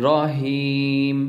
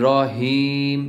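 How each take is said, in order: No difference in how they are said.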